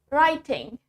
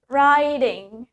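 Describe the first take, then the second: First: The middle T is pronounced clearly. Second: The middle T sounds like a D. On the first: "In British, we say the T clearly" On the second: "in American, we say the T as D"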